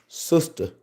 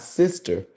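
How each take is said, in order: First: It is pronounced 'sustah', with an 'uh' vowel. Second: It is pronounced as standard 'sister'. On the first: "S U S T A H" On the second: "not Sister"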